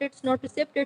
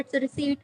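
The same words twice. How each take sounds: First: "receipt" with an audible p, "ri-SIPT"; short i and a sounded p in "receipt"; wrong "receipt". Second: "receipt" with the p silent, "ri-SEET"; correct "receipt". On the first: ("receipt" को "रिसिप्ट" बोलें) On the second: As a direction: drop the p in "receipt", long ee. ("receipt" को "रिसीट" बोलें) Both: Shown as a demonstration. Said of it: "पी silent होता है".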